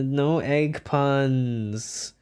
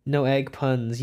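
First: Very slow "no egg puns"; long, dragged-out words; drawn-out refusal. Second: Said in the usual way. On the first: Real, not acted. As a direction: stretch out each word of the refusal. Refuses, then repeats it normally.

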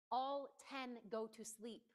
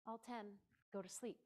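First: "All" hit first and strongest, then even; stress on all. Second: "ten" punched, the rest calm and soft; stress on ten. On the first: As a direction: start on a firm "All" to include everyone. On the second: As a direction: lean hard on "ten" so no one misses the number. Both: Shown as a demonstration. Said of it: "I'm emphasizing this".

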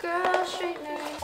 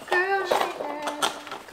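First: Said in the usual way. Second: Laughing repeat. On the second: Real, not acted. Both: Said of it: "So this is my girl straightener".

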